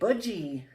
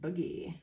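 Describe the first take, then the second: First: The g is a soft j sound. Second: The g is a hard sound. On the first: The speaker calls it wrong. "you wouldn't say budgie" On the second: The speaker calls it right. "you got to kind of shake your hips when you do it"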